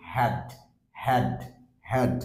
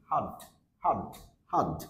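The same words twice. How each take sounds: First: "হ্যাড" with a full open æ; strong form. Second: "হার্ড" as short /həd/, no r; weak form. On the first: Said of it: "strong sound আমরা এটাকে বলছি". ("হ্যাড" অ্যা-ধ্বনিতে, strong সাউন্ডে) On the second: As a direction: reduce "হার্ড" to an uh vowel. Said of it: "উইক সাউন্ডটা sound আসতেছে". ("হার্ড" ছোট উইক সাউন্ডে) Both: Shown as a demonstration.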